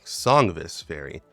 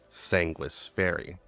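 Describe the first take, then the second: First: The v is sounded like a v. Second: The v is sounded like a w. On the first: The speaker calls it wrong. "that's what the English dub used" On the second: The speaker calls it right. "the V is pronounced like either a U or a W"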